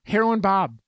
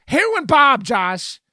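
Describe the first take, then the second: First: Pointed, slightly raised reminder; insistent. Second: Loud, high-pitched protest; exclaimed insistence. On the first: Co-host argues about Hackers, insistent. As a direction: press the name on your co-host. Repeating a name to press point. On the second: Co-host presses the point about Hackers, loudly insistent. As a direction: belt the name out at your co-host. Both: Real, not acted.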